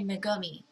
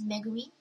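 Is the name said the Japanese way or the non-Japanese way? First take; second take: non-Japanese; Japanese. First: It is said with non-Japanese pronunciation. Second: It is said with Japanese pronunciation. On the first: The speaker calls it wrong. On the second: The speaker calls it right.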